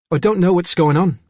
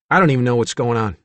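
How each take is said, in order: First: Higher-pitched Cockney lad, bewildered; Cockney-accented confused child; Cockney boy. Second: Put-on surly teenager, irritated and dismissive; understated hostile defiance; sullen. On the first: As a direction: puzzle it out in a boyish Cockney accent. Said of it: "it was a boy with a Cockney accent". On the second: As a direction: shrug it off with sullen impatience. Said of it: "Tommy remained sullen". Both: A narrator's reading.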